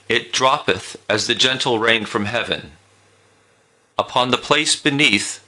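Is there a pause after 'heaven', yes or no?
yes. It stops with a pause after heaven.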